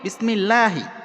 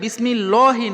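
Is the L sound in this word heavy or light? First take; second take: light; heavy. First: The L sound is light and thin. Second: The L sound is heavy and full. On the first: The speaker calls it right. "ডানের হরফে জের থাকে তখন লা উচ্চারণ হবে" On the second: The speaker calls it wrong. "বিসমিল্লাহি নয়"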